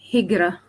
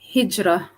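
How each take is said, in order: First: The middle consonant is a hard g sound. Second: The middle consonant is a soft j sound.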